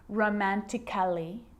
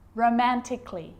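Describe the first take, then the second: First: An extra vowel is sounded before the final 'ly'. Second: No vowel is sounded before the final 'ly'. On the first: The speaker calls it wrong. "So I'm not pronouncing romantically" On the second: The speaker calls it right. "Cut the A out"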